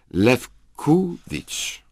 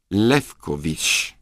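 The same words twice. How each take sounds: First: The stress is on the second syllable. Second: The stress is on the first syllable.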